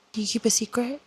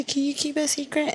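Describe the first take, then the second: First: Hushed read. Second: Higher, sneering echo of his line; mocking quote. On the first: Real, not acted. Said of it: "reading the line aloud". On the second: Mocking the love interest's line, higher sneering echo. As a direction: throw his words back at him mockingly. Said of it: "How the fuck are you gonna say".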